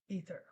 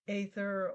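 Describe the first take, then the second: First: The word is pronounced in the American way. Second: The word is pronounced in a non-American way.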